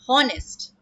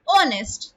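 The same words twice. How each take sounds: First: The word starts with an audible h sound. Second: The word starts with a vowel, no h. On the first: The speaker calls it wrong. "and not honest" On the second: The speaker calls it right. "We pronounce it as honest"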